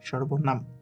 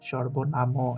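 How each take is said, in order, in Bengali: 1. শব্দটি একটি খালি m ধ্বনি দিয়ে শেষ হয়। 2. চূড়ান্ত m-এর পরে একটি স্বরধ্বনি থাকে। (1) "যেন ময়ের নিচে একটি হসন্ত আছে এবং মতে আমরা উচ্চারণ থামিয়ে দিচ্ছি" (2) "সর্বনাম এভাবে উচ্চারণ করছি না"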